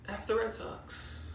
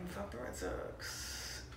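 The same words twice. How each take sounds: First: Much softer, half-whispered "F the Red Sox"; sheepish hushed jab after apologising to Ray Ray; self-censored whisper. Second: Much softer, slow, breathy hush; conspiratorial hushed jab at the Red Sox; whispered curse. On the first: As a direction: swap in the polite letter but keep it hushed. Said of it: "Sorry, Ray Ray, but". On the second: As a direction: let the swear slip out under your breath. Rival-team curse, held back. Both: Real, not acted.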